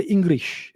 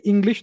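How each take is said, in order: First: "English" said as "Ingrish", R for L; Japanese-accented pronunciation. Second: Said in the usual way. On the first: Shown as a demonstration. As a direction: turn the L in "English" into an R. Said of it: "When the Japanese speak English". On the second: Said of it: "they say English".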